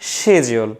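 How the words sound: The word begins with an sh sound. "আর ব্রিটিশরা কি বলে"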